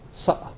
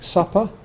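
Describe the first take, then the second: First: The middle consonant is a glottal stop. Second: The middle consonant is a full p sound. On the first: "You might even hear making and supper" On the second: "or p in words like supper"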